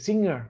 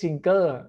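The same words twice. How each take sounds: First: Only a nasal ng, with no hard g. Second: A hard g sound follows the ng. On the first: The speaker calls it right. "นะเป็น" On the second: The speaker calls it wrong. "ไม่ใช่"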